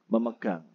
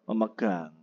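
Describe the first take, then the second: No difference in how they are said.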